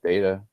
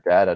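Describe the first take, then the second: First: Data said as "DAY-tuh"; first vowel of data as in "date"; long-A data. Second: Data said as "DAT-uh"; first vowel of data as in "cat"; short-A data. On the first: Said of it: "or data, depending on where you're from". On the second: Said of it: "depending on where you're from". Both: Shown as a demonstration.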